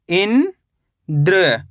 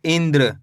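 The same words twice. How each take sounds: First: इंद्र as drawn-out "in", pause, "dra"; split syllables. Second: Said in the usual way. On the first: Shown as a demonstration. Teacher breaking down इंद्र for learners, split syllables. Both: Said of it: "तो मिलके बन जाएगा".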